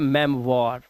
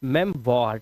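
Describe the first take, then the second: Both takes have the same delivery.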